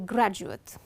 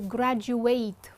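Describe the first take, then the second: First: It is pronounced the way the noun is. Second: It is pronounced the way the verb is. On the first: It names the person who finished a degree. "the person is called a graduate" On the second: It names the action of finishing a degree. "that's the verb"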